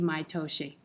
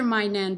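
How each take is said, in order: First: It is said as maitoshi. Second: It is said as mainen. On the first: The speaker calls it right. "it should be Maitoshi" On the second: The speaker calls it wrong. "You do hear my nen"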